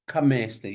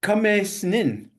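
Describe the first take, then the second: First: Kamesnin with the middle vowel as a short A, as in "cat". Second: Kamesnin with the middle vowel said as a long E, "kuh-MAYS-nin"; wrong vowel. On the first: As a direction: say Kamesnin with a short, open A in the middle, "kuh-MAS-nin". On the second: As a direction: say Kamesnin with an E sound in the middle instead of the short A. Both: Shown as a demonstration. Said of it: "that should be a short A".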